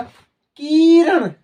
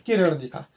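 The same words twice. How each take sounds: First: की in किरण dragged out very slowly, high and loud; stretched long ee. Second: किरण with a quick short i. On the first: Teacher showing how long ई changes the word. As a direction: drag out the ee in किरण. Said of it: "देखो कितना sound हो रहा है". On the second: Teacher showing the right spelling sound. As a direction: say किरण with a brief i. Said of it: "आपने एक शब्द लिखा". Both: Shown as a demonstration.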